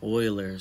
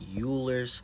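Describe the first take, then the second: First: The name begins with an 'oy' sound. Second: The name begins with a 'you' sound. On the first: This is how mathematicians say the name. "math heads and whomever might say Euler's" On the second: This is how the written name looks. "I know it looks like Euler's"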